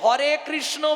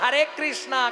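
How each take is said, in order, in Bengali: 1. Krishna শব্দটি একটি ছোট 'o' ধ্বনি দিয়ে শেষ হয়। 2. Krishna শব্দটি একটি দীর্ঘ 'a' ধ্বনি দিয়ে শেষ হয়। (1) "এখনো হরে কৃষ্ণ বলতে পারে না" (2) "হরে কৃষ্ণা হরে কৃষ্ণা করছে"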